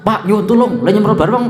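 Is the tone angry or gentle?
angry. It is said in a harsh, angry tone. An upset reader hears it as hostile.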